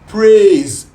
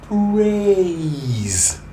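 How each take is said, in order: First: The vowel stays on one pure sound. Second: The vowel glides from one sound into another. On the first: The speaker calls it wrong. "Just A" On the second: The speaker calls it right. "But praise is A to E"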